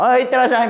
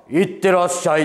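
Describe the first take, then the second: First: Light, offhand, higher "いってらっしゃい"; his own father's offhand sendoff, imitated; casual dad sendoff. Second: A lightly voiced, weighty see-you-off; a star sending the young comedian off to work, imitated lightly; deep fatherly sendoff. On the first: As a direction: toss it off like an ordinary dad. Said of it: "みたいな感じだけど". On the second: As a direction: imitate a sturdy father seeing someone off. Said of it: "たくましいお父さん".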